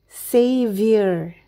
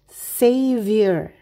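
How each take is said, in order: No difference in how they are said.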